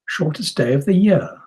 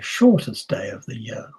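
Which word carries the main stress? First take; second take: year; shortest. First: The main stress falls on "year". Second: The main stress falls on "shortest". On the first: The contrast is about years. "that's possible if we're thinking about years" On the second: The contrast is about how long days are. "that's possible if we're looking at lengths of days"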